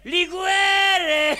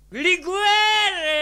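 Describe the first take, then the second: First: Higher, louder shout; tipsy shout for more liqueur; shouted demand. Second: Higher and louder, falling call; tipsy demand, pitched up; demanding liqueur. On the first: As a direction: yell it across the shop. Repeat, now shouted. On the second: Demanding liquor at the shop. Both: Retold or imitated.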